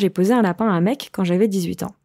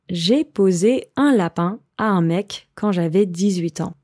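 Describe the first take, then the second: First: It is said at a faster pace. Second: It is said at a slower pace.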